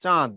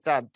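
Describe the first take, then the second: First: চাঁদ with a nasal vowel, a bit louder; nasalised vowel. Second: Said in the usual way. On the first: Shown as a demonstration. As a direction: push the vowel of চাঁদ through the nose. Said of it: "চাঁদ না, উচ্চারণ কি?". (চাঁদ জোর দিয়ে নাকি সুরে) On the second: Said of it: "চন্দ্রবিন্দু না দিলে উচ্চারণ হবে".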